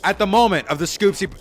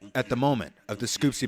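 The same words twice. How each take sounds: First: It is said in a normal speaking voice. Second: It is said in a put-on narrator voice.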